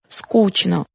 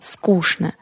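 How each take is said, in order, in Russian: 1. Средний согласный — звук ch. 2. Средний согласный — звук sh. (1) "Не следует произносить" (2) "Надо произносить"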